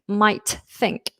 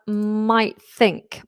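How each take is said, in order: First: The t of might is fully pronounced. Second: The same.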